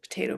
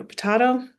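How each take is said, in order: First: "potato" as puh-TAY-toh; long A pronunciation. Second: "potato" as puh-TAH-toh; broad A pronunciation. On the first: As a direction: say "potato" with an "ay" in the middle. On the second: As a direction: say "potato" with an "ah" in the middle. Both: Shown as a demonstration. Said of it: "Doesn't matter how you say it".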